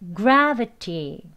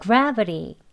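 First: The middle consonant is a clear t sound. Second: The middle consonant is a soft r-like flap. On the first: "1단계" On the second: "마지막 부드럽게 해야죠"

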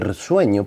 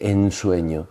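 First: An R-like sound comes before 'sueño'. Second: An N sound comes before 'sueño'. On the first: It is a lyrical trick because R is easier to pronounce. "dice el sueño" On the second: This is the ordinary form of the word. "no dice en sueño"

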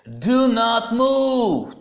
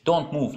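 First: The words 'do not' are said in full. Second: The words 'do not' are contracted to 'don't'. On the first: The command is emphatic. "это делается для усиления как раз" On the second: It is an ordinary everyday command. "в разговорной речи обычно мы говорим"

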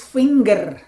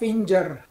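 First: The middle consonant is a hard g. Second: The middle consonant is a j sound. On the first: The speaker calls it right. "this one is finger" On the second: The speaker calls it wrong. "Saya tahu beberapa G diucapkan J dalam bahasa Inggris"

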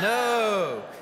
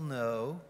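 First: It is said emphatically, with excitement. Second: It is said flatly, without enthusiasm.

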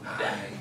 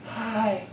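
First: It is said softly and slowly. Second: It is said loudly.

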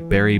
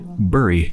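First: The word sounds exactly like berry. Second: The word sounds different from berry. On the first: The speaker calls it wrong. "I pronounce it the same way" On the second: The speaker calls it right. "I've heard some other people pronounce it bury, which is like definitely more accurate"

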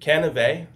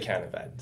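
First: The last syllable rhymes with Chevrolet, ending 'vay'. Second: The last syllable ends with a 't' sound, 'vet'. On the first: This is the family's own pronunciation. "like Cannivet. Chevrolet" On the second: This is how most other people say it. "but most people say Cannivet"

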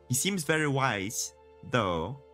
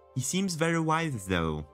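First: There is a break before 'though'. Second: It runs smoothly into 'though' without a pause. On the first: The speaker calls it wrong. "If I would read it as it is written" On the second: The speaker calls it right. "That's how it should be pronounced"

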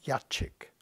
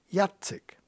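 First: The c sounds like 'ch'. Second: The c sounds like 'ts'. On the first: The speaker calls it wrong. "Alle meine Freunde haben immer gesagt Jacek" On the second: The speaker calls it right. "der hat kein Hacek drauf"

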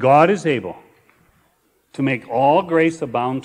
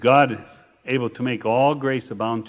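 First: The verse is read at a slower pace. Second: The verse is read at a normal pace.

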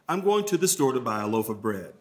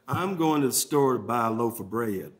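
First: It is said in a neutral American accent. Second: It is said in a Southern American accent. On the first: "That was an attempt to do it without an accent" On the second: "if I'm in the South, I'm going to say"

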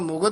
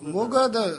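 First: The word is said in a common loose way. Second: The word is said carefully, sound by sound. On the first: The speaker calls it wrong. "ਆਮ ਜ਼ਿਆਦਾ ਮੁਗਧ ਹੀ ਬੋਲ ਜਾਂਦੇ" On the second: The speaker calls it right. "ਮੰਮੀ ਔਂਕੜ ਗੱਗਾ ਧੱਦਾ"

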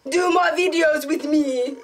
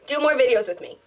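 First: It is said in a put-on Jamaican accent. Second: It is said in the speaker's plain accent.

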